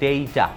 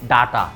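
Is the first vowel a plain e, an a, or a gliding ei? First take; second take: gliding ei; a. First: The first vowel glides from e to i. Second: The first vowel is an open a. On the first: The speaker calls it right. "Proper pronunciation হবে ডেইটা" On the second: The speaker calls it wrong. "অনেকে বলি ডাটা"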